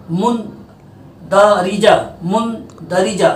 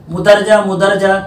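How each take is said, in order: First: मुंदरिजा slowly as mun-da-ri-ja with full n; correct mundarija. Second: मुदरजा clipped as mu-dar-ja without the n; wrong mudarja. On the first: Teacher slowly modelling correct मुंदरिजा for pupils. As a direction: spell out मुंदरिजा slowly, every syllable. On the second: Teacher imitating pupils' wrong मुदरजा. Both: Shown as a demonstration. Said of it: "तो मुदरजा गलत है".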